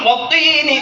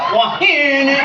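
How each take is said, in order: First: The middle consonant is a crisp t sound. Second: The middle consonant is a breathy, airy sound. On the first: Said with all teeth, the letter is pronounced properly. The speaker calls it right. "Harusnya watini" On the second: Missing front teeth let the air escape. The speaker calls it wrong. "dia nggak wahini"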